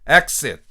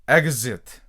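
First: The x is a voiceless ks sound. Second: The x is a voiced gz sound. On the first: "무성음 버전" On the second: "이제 유성음 버전 해보겠습니다"

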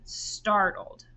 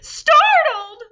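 First: The word is said in a calm voice. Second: The word is said in an alarmed voice. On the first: "I want you to say it in a normal voice first" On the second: "Now I want you to say it like you are startled"

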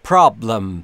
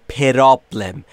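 First: The p and r join with no vowel between. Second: An extra vowel is inserted between p and r. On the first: The speaker calls it right. "بین P و R صدایی وجود نداره و ما نباید صدایی اضافه بکنیم" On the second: The speaker calls it wrong. "نود و نه درصد زبان آموزا متاسفانه به دلیل آموزش اشتباه میگن پرابلم"

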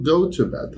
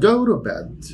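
First: The t in 'to' is a clear t. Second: The t in 'to' is a quick flap. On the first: "عادي" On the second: "بسميها flap T"

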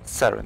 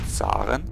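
First: The name is pronounced the English way. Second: The name is pronounced the German way.

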